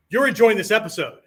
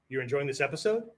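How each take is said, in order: First: Loud, higher, falling on "You're"; forceful statement. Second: Soft and low, lifting at the end of "episode"; rising question. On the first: Teacher shows the students a forceful statement, loud and falling. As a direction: declare "You're enjoying this episode" firmly. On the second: Teacher shows the students a question by its end, soft and rising. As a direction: let "episode" rise into a question. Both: Shown as a demonstration. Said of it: "If I say".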